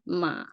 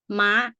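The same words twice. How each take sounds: First: The syllable is said with a low tone. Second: The syllable is said with a high tone. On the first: "low tone ma" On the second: "it goes straight up, high tone"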